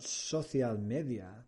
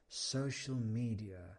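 First: It is pronounced with a Spanish-style accent. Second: It is pronounced with a native English accent. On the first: The speaker calls it wrong. "it's not social media" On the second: The speaker calls it right. "it's social media"

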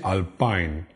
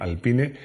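First: The name is pronounced the English way. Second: The name is pronounced the Spanish way. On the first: "no se dice alpine en inglés" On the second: "yo la voy a pronunciar en español"

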